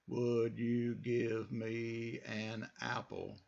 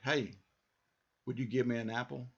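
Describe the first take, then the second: First: It is said slowly, word by word. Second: It is said at normal, flowing speed.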